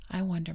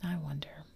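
First: Thoughtful "I wonder" with a louder fall on "I"; musing father, lightly thoughtful. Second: Musing father echoing himself, hushed; thoughtful echo. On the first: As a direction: muse aloud, first take. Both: Acted. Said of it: "Mister Darling said thoughtfully".

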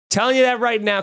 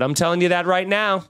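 First: Higher, punched insistence on "you"; emphatic repeat. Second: Said in the usual way. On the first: Real, not acted. Podcaster insisting the fly will ruin the episode, emphatic. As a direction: hammer the point home.

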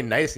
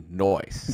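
First: "nice" said the ordinary way, clear ai sound; "nice" spoken plainly as it is normally said. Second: "noise" drawn out slowly with a round oi sound; nice as noise. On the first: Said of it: "We say noise". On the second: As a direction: stretch "noise" slowly, oi in place of ai. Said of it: "we can't say nice anymore". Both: Shown as a demonstration.

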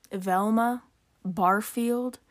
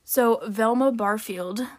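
First: Velma Barfield stretched slowly, every syllable savoured; drawn-out name. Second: Said in the usual way. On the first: Real, not acted. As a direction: linger on "Velma Barfield", slow and mocking. Mocking the name.

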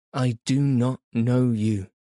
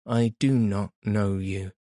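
First: A cry of distress, a touch louder; anguished cry. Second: Said in the usual way. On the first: A narrator's reading. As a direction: cry out the denial in torment. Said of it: "she cried".

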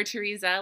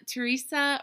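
First: "Teresa" with a z sound, tuh-REE-zuh; alternative pronunciation. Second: "Teresa" with an s sound, tuh-REE-suh; first pronunciation option. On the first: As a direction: give "Teresa" a buzzing z in the last syllable. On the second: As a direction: give "Teresa" a hissed s in the last syllable. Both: Shown as a demonstration. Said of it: "let me know".

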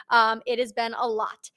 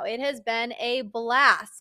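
First: Said in the usual way. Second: Slow, dry sarcastic "It has been a blast", falling at the end. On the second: Real, not acted. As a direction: drag out "blast" as if it were anything but fun. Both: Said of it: "if you can't hear the sarcasm in my voice".

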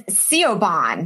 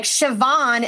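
First: Siobhan read letter by letter as "see-oh-bahn"; spelling pronunciation. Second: Siobhan said "shi-VAWN"; Irish pronunciation. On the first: Showing how the spelling misleads, Siobhan as "see-oh-bahn". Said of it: "it's spelled S I O B A H N". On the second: Raising Irish names, Siobhan said properly as "shi-VAWN". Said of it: "how about Irish names?". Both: Shown as a demonstration.

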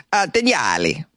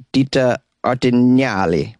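First: Artignali in a hammed-up Italian accent, pitched higher; mock Italian pronunciation. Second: Ditta Artignali read carefully, rising at the end; careful Italian name. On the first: Host tries the bar's name in an Italian accent, hammed-up. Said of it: "work on my horrible Italian accent". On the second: Host reads out the coffee bar's Italian name, carefully rising. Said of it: "I hope I'm saying this right". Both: Shown as a demonstration.

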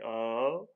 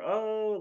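First: Casual "oh", not the catchphrase; an "oh" kept near the everyday voice; Rigby. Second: High, loud, drawn-out "oh"; exaggerated deliberate "oh"; usual catchphrase "oh". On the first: Retold or imitated. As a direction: say "oh" without the big hoot. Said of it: "but Rigby was more so saying". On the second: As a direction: hoot a mock cartoon "OH". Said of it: "like how they usually do".

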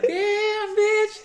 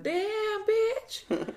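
First: Much higher and louder squealing "Damn, bitch". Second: Much higher, squeaky mock "Damn, bitch"; mock squeal. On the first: Retold or imitated. Repeating the friend's joke louder, a high loud squeal. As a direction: belt it high and loud for the laugh. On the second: Imitating a friend mocking the sale price, a high squeal. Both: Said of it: "He's like".

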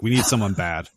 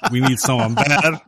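First: Said in the usual way. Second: "bad" pushed louder at the end; stress on bad. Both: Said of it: "I'm like".

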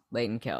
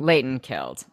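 First: Much softer, hushed repeat; awed hush. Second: Said in the usual way. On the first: Shown as a demonstration. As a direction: breathe it reverently a second time.

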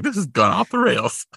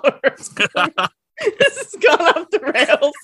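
First: Quoting co-host. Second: Laughing, high and slow. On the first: Retold or imitated. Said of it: "where you're like". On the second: Real, not acted. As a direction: laugh through the words. Laughing at herself.

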